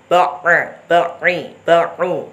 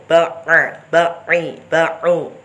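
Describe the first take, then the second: The two takes are said the same way.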